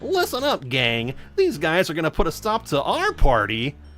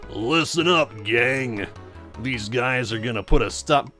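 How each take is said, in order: First: The voice sounds small and light. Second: The voice sounds big and heavy.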